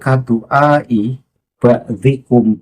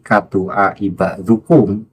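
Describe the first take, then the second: First: The vowel before -kum is an i sound. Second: The vowel before -kum is a u sound. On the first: The speaker calls it right. "harus dibaca jar ... memakai harokat kasroh" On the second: The speaker calls it wrong. "mengikuti bacaan Pak Lutfi"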